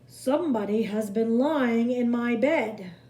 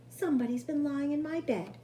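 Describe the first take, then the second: First: It is said in a deep, gruff voice. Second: It is said in a medium, middle voice.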